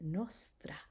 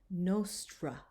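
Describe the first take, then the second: First: The R is lightly rolled with the tongue. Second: The R is a smooth English-style R. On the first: The speaker calls it right. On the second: The speaker calls it wrong.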